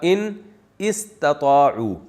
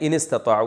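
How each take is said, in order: First: The two words are said separately, alif sounded. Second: The two words are joined, alif silent. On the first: This is the original underlying form. "असल में था" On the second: This is how it is actually recited. "मिला के पढ़ा दिया"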